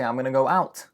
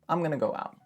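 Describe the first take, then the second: First: The final T sound is pronounced. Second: The final T sound is dropped. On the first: The speaker calls it wrong. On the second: The speaker calls it right.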